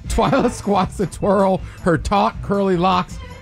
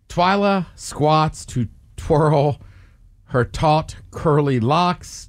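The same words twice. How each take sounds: First: It is said fast. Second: It is said at a normal pace.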